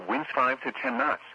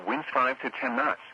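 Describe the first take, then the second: No difference in how they are said.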